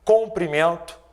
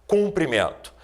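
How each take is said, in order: First: "Comprimento" with a clear open O in the first syllable; clear teaching pronunciation. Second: "cumprimento" with a clear U in the first syllable; clear teaching pronunciation. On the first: ("Comprimento" com O bem marcado) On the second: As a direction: sound out "cumprimento", marking the U against the O. ("cumprimento" com U bem marcado) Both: Shown as a demonstration. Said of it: "Irei listar alguns exemplos".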